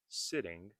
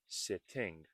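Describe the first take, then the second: First: The middle T is flapped. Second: The middle T is clearly released. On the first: "Notice I said sitting" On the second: "and not sitting. Sitting is also okay because it is very clear"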